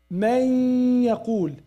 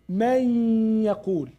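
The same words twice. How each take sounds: The two takes are said the same way.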